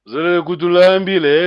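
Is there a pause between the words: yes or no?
no. The words run together without a pause.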